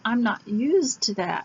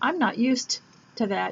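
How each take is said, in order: First: The words are blended smoothly with no gap. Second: The words are separated with a small gap. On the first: The speaker calls it right. "You'd say" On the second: The speaker calls it wrong. "you wouldn't say"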